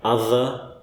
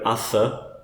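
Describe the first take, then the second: First: The th sound is buzzing and voiced. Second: The th sound is voiceless with no buzz. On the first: The speaker calls it right. "is meant to have the voiced one" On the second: The speaker calls it wrong. "If in doubt, use the voiceless one ... Sounds a bit strange"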